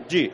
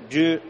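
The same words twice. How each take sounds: First: "yu" as a similar Chinese syllable, with a falling tone; Chinese character pronunciation. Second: "yu" as an approximate Chinese syllable, held fairly level; Chinese character pronunciation. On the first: Teacher sounding out the right-hand character, "yu" with a fall. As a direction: say "yu" like a Chinese word, dropping at the end. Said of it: "La pronunciación es muy parecida". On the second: Teacher sounding out the left-hand character, "yu" held fairly level. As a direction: say "yu" like a Chinese word, without dropping it. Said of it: "se pronuncia algo así como".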